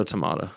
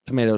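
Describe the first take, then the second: First: "tomato" with an ah in the middle; "tomato" the British way, MAH in the middle. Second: "Tomato" with a long ay in the middle; "Tomato" the American way, MAY in the middle. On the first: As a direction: say "tomato" as tuh-MAH-toe. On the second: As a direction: say "Tomato" as tuh-MAY-toe. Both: Shown as a demonstration. Contrasts two pronunciations as a joke.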